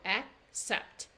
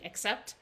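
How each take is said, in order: First: It is said slowly, with a stop between syllables. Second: It is said quickly and smoothly, without a stop. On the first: "You can even see I stop there" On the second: "They're saying accept"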